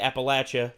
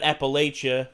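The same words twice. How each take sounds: First: The middle syllable sounds like 'latch'. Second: The middle syllable does not sound like 'latch'. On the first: This is how locals say it. The speaker calls it right. "around here we say Appalachia, like shutting the latch" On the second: This is how outsiders say it. The speaker calls it wrong. "not Appalachia, not like we're in fucking Canada"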